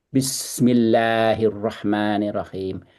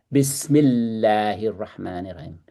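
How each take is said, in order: The two takes are said the same way.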